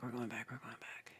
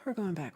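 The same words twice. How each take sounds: First: Fading whispered chant. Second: Said in the usual way. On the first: Shown as a demonstration. Streamer whispering as she scrolls back through chat. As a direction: whisper the repeat as it trails off.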